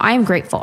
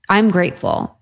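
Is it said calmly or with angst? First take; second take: with angst; calmly. First: It is said tensely, with angst. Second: It is said calmly and sincerely.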